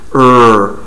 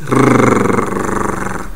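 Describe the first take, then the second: First: The R is made smoothly without tongue contact. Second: The R is made with a quick tongue tap. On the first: "Se você não tocar, o ar vai passar tranquilamente" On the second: "Se você tocar, começa a vibrar, faz R"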